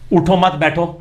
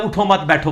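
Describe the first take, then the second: First: اٹھو مت بیٹھو with stress on اٹھو and a break after اٹھو, so it means "get up, don't sit"; phrasing shift. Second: اٹھو مت بیٹھو with stress on مت and a break after مت, so it means "don't get up, sit"; phrasing shift. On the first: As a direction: hit اٹھو and pause before مت بیٹھو. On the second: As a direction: lean on مت and pause after it. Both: Shown as a demonstration. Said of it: "اور ایسا بدلا ہے".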